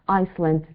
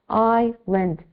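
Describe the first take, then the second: First: The word is said with an s sound. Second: The word is said with no s sound. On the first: The speaker calls it wrong. "It's not Iceland" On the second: The speaker calls it right. "the pronunciation is island. ... We don't pronounce the S"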